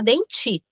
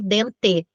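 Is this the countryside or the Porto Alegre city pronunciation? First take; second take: Porto Alegre; countryside. First: It is said the way Porto Alegre says it. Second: It is said the way the countryside says it. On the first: "se for em Porto Alegre a gente não fala dente, a gente fala denti" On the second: "se fala no no interior dente"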